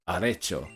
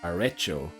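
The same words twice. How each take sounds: First: The E vowel sounds Spanish. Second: The E vowel sounds English. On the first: The speaker calls it right. "Finally, it sounds flippin'... Spanish. There we go" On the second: The speaker calls it wrong. "I just hear English. There's no way that's Spanish"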